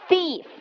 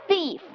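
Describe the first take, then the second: The two takes are said the same way.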